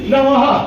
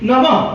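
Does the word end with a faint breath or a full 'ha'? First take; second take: full ha; faint breath. First: The final visarga is a full 'ha' sound. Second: The final visarga is a faint breathy exhale. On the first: It copies a Hindi-speaking style. The speaker calls it wrong. "বিসর্গ স্থানেতে বিসর্গটা হয়ের মতো উচ্চারণ করা যাবে না" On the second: It follows the classical Bengali tradition. The speaker calls it right. "তার উচ্চারণ হচ্ছে একটা নির্জীব সাপের নিঃশ্বাসের মতো"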